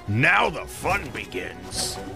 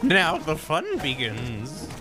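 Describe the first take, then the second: First: It sounds like a boss entering its second phase. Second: It sounds like a creepy clown in a horror movie.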